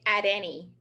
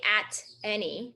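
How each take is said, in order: First: The T is a quick D-like flap. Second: The T is a clear, separate T sound. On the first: The speaker calls it right. "we say at any" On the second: The speaker calls it wrong. "we do not say at any"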